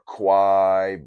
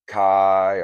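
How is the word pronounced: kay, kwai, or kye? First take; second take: kwai; kye. First: It is said like "kwai", with a w sound. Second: It is said like "kye", rhyming with "sky". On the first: "or Kwai" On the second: "a lot of people think it's Kai"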